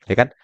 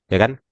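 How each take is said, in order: Both takes have the same delivery.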